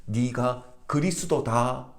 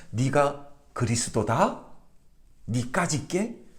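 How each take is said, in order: First: Slow "네가 그리스도다" as a statement, no question rise; plain statement. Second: Slow, scornful rising question; mocking disbelief. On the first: Shown as a demonstration. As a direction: state "네가 그리스도다" slowly, like a full stop. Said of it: "이건 그냥 평서문이에요". ("네가 그리스도다"를 평서문으로 느리게) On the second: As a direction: sneer it slowly as an incredulous question. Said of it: "이렇게 조롱을 하고 있는 것입니다". (느리게 비웃으며 되묻는 조롱조)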